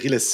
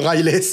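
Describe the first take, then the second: First: The name is said with a French pronunciation. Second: The name is said with an American pronunciation. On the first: The speaker calls it right. "C'est Riles" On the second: The speaker calls it wrong. "Il n'y a jamais eu de Riles. ... ils le prononcent un peu à l'américaine"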